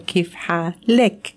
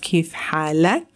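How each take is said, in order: First: The last vowel sounds like 'e'. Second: The last vowel sounds like 'a'. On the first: The person addressed is female. "if you're a female" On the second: The person addressed is male. "if you're a male"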